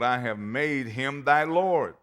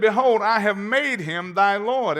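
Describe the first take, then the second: First: Said in the usual way. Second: Higher, much louder, ringing proclamation; proclaimed. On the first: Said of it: "scripture read then preached". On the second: Shown as a demonstration. Preacher proclaiming Isaac's words to the congregation, loud. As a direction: thunder the verse out. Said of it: "same verse preached loud".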